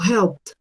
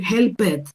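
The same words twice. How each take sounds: First: The ending is said as a short 't' sound. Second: The ending is said as a separate 'id' syllable. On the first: The speaker calls it right. "Con una T al final de ese sonido" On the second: The speaker calls it wrong. "Pero yo no puedo decir helped"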